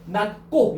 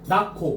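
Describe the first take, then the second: First: The word is said deliberately and carefully. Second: The word is said relaxed, with sounds merged. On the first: The speaker calls it wrong. "일부러 낮고 이렇게 하려고 하지 말고" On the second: The speaker calls it right. "편하게 낮고 이렇게 하지"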